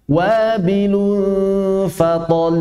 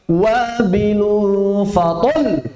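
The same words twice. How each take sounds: First: The final syllable is raised slightly in voice. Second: The final syllable is pushed with heavy emphasis. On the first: The speaker calls it right. "Begitu ya" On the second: The speaker calls it wrong. "Ada sebagian orang berlebihan, harus dinabar"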